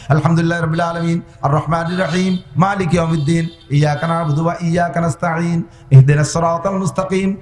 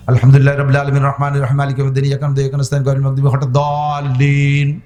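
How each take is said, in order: First: Each verse recited separately with a clear pause after it; verse-by-verse recitation. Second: Whole Fatiha raced through in one breath, fast and chanted; rushed recitation. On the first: Preacher showing the congregation the right way, with a pause after every verse. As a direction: break the Fatiha into verses and breathe between them. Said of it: "কিরাত এভাবে কেটে কেটে পড়বো". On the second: Preacher showing the wrong way, reciting fast in one breath. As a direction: rattle it off without stopping to breathe. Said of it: "আর আপনি এক নিঃশ্বাসে মারিয়ে দিয়েছেন".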